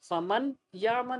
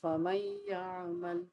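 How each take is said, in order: First: The n sound is pronounced clearly before y. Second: The n sound is merged into the y. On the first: The speaker calls it wrong. "फमन यामन नॉट, हम इसे फमन यामन नहीं पढ़ते" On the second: The speaker calls it right. "हम नून के साउंड को मर्ज कर देते हैं किसके साथ, या के साथ"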